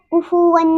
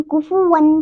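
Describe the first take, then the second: First: कुफुवन with the N held as a hum; wrong ghunna. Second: कुफुवन with a short, clean final N; correct clear N. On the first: Teacher shows what to avoid, hummed कुफुवन. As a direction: hum through the nose on the end of कुफुवन. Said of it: "नहीं पढ़ेंगे". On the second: Teacher names the right form, clear कुफुवन. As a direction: end कुफुवन without humming. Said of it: "कुफुवन को कुफुवन नहीं पढ़ेंगे". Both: Shown as a demonstration.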